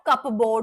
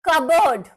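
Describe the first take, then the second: First: The p sound is clearly pronounced. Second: The p sound is not pronounced. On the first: The speaker calls it wrong. "Not कपबोर्ड" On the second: The speaker calls it right. "पी silent"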